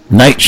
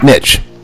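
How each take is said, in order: First: The vowel sounds like the word 'nigh'. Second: The vowel does not sound like 'nigh'. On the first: The speaker calls it right. "Nitsch, not Nitsch" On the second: The speaker calls it wrong. "not Nitsch"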